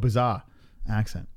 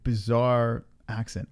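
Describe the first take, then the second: First: It is said in a Boston accent. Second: It is said in a non-Boston accent. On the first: "if I was from Boston" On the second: "It's my bizarre accent"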